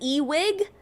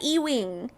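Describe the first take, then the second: First: The name ends with a plain g sound. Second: The name ends with an ng sound. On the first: Someone else says the name this way. The speaker calls it wrong. "she always says Ewig" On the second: The name is spelled this way. The speaker calls it right. "that said Ewing"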